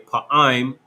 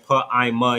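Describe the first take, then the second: First: The word ends on a consonant sound. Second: The word ends with an extra vowel sound. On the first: The speaker calls it right. "you say pa-im" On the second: The speaker calls it wrong. "instead of saying pa-ima yum"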